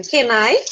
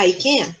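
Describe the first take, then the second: First: "Can I?" with a rising question tune at the end; question intonation. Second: Said in the usual way. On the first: Shown as a demonstration. Teacher shows students the question form, rising question tune. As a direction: ask "Can I?", letting the voice rise on I. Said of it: "com a entonação de pergunta". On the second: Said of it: "a afirmativa não é".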